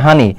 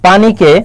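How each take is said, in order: First: The word is said in regional pronunciation. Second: The word is said in standard pronunciation.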